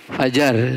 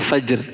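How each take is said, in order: First: A vowel is inserted between the j and r. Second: The j and r are said together, no vowel. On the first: This is the Indonesian form. "bahasa Indonesianya fajar" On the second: This is the original Arabic form. "bahasa Arabnya fajr"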